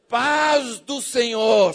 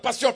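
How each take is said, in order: First: It is said slowly and calmly. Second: It is said fast and rushed.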